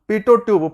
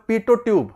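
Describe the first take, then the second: Both takes have the same delivery.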